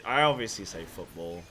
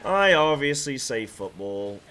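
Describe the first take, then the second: First: Said in the usual way. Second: "I obviously say football" loud and drawn out; emphatic. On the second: Shown as a demonstration. Streamer insisting on football over soccer, loud and emphatic. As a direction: hit the opening I loudly, then stretch the phrase.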